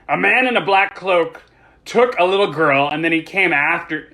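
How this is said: It is read in another character's voice.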